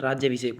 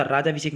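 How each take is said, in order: First: राज्य अभिषेक with 'jy' ending the first part; correct form. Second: राजा अभिषेक with plain 'jaa', loud; wrong form. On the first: Teacher giving the right word, राज्य अभिषेक with 'jy'. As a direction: say राज्य अभिषेक with a glide after j. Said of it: "राज्य अभिषेक होता है". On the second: Teacher rejecting the wrong spelling, राजा अभिषेक with 'jaa'. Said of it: "राजा अभिषेक नहीं होता". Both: Shown as a demonstration.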